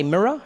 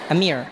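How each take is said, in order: First: "mirror" with two full syllables, mirr-uh; his own pronunciation. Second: "A mirror" clipped to one syllable, like "meer"; American pronunciation. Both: Shown as a demonstration. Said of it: "In American, you say a mirror".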